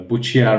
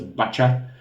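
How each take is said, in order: First: The title is said with a Buchia-like sound. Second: The title is said with a Bacha-like sound. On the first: The speaker calls it wrong. "I was saying that uh, pronunciation uh, all the time wrong" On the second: The speaker calls it right. "It's a Bacha"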